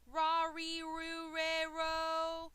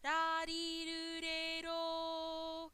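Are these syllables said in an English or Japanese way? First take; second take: English; Japanese. First: The syllables are pronounced with English sounds. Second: The syllables are pronounced with Japanese sounds. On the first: The speaker calls it wrong. "do not say ra, ri, ru, re, ro. It sounds English" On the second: The speaker calls it right. "It's Japanese"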